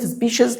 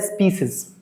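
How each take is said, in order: First: The middle consonant is a "sh" sound. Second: The middle consonant is an "s" sound. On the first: "بالبريتش" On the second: "بالامريكان"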